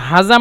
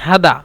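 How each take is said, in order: First: The middle consonant is a z-like sound. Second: The middle consonant is a d sound. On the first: This is the standard Arabic form. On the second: This is how Saudis say it.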